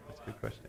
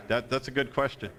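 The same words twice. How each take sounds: First: Breathy whisper under his breath; voiceless repeat to himself; whispered aside. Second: Said in the usual way. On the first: Real, not acted. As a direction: mutter it to yourself, no voice.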